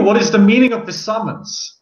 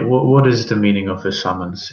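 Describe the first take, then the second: First: It is said in a confrontational, challenging tone. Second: It is said in a polite, restrained tone. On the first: The speaker is openly challenging the listener. "say it that confrontationally" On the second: The speaker is asking respectfully. "politely then"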